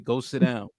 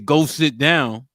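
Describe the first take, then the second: First: It is said calmly at normal volume. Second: It is said loudly with a raised voice.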